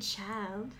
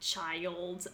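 First: The word is said with one syllable. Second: The word is said with two syllables. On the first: "I don't say child" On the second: "I say it as 2 syllables"

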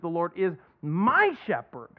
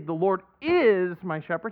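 First: The word my is stressed. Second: The word my is not stressed. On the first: The Lord is a shepherd personally to the speaker. "We put the emphasis on my" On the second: The Lord is certainly a shepherd. "he also doesn't just say"

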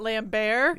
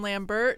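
First: It ends with a French 'bear' sound. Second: It ends with an English 'bert' sound. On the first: The speaker calls it wrong. "not Lambert. ... None of like, that French stuff here" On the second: The speaker calls it right. "as in Lambert"

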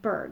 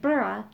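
First: It ends in one syllable, like 'berg'. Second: It ends in two syllables, like 'burra'. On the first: The speaker calls it wrong. "not berg" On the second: The speaker calls it right. "It's pronounced burra"

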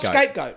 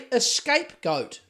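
First: The word starts directly with the 's' sound. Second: The word starts with an extra 'eh' vowel. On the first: The speaker calls it right. "Not scapegoat, which is the terminology" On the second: The speaker calls it wrong. "People say escape goat, like escape"

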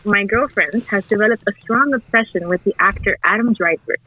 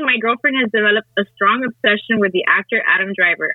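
First: It is read in an over-enunciated NPR voice. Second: It is read in a plain, normal voice.

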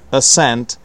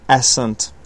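First: The stress falls on the second syllable. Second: The stress falls on the first syllable. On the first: The speaker calls it right. "the stress is on the second one" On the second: The speaker calls it wrong. "not ascent"

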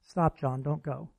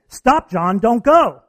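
First: The words are said flatly without urgency. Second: The words are said with urgent, cautious excitement. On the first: The warning may not get through. The speaker calls it wrong. "John's only going to hear 7% of the first one" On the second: The warning comes across as a real caution. The speaker calls it right. "the caution, the excitement in my voice and my tone"

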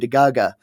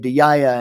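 First: It is said with Omani dialect pronunciation. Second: It is said with Emirati dialect pronunciation.

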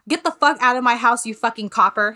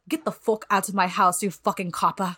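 First: It is spoken in the speaker's normal accent. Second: It is spoken in a put-on British accent. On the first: "Which translates to" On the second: "I'm going to try to say this in a British accent"

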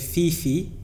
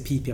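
First: Both syllables start with an F sound. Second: Both syllables start with a P sound. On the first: The speaker calls it wrong. "some people say Fifi" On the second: The speaker calls it right. "some people say Pee-Pee. Apparently, it's Pee-Pee"

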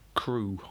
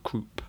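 First: The word ends without a P sound. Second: The word ends with a P sound.

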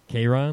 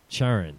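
First: The name begins with a hard K sound. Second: The name begins with a soft, non-K sound. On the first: The speaker calls it right. "He insists it's Charon or Charon" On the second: The speaker calls it wrong. "I didn't say it right"

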